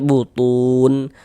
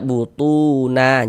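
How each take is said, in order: First: The word ends on a bare n sound. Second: The word ends with a vowel after n. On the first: The speaker calls it right. "Kalau berhenti di huruf nun kita baca butun" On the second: The speaker calls it wrong. "Jangan dibaca butuna, jangan"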